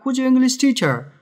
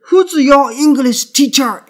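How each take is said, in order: First: Light "who's your", firmer "English teacher"; nouns stressed. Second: Loud, high, heavy beat on "who's your English teacher"; every word stressed. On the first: Teacher showing students the right reading, nouns stressed. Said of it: "명사니까 강하게 읽는다". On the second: Teacher showing how not to read it, every word stressed. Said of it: "이렇게 읽는 게 아니라". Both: Shown as a demonstration.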